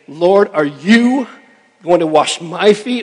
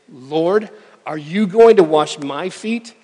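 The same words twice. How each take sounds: First: Every word is said with strong emphasis. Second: It is read plainly, without special emphasis.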